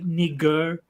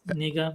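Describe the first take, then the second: First: The final R sound is pronounced. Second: The final R sound is dropped. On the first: "I have to deliberately force myself to pronounce it that way" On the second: "which is how I would naturally talk"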